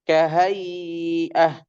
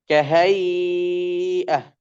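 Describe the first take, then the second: First: The vowel before the hamzah is held medium long. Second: The vowel before the hamzah is held extra long. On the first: "tawassud empat harokat" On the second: "tul enam harokat"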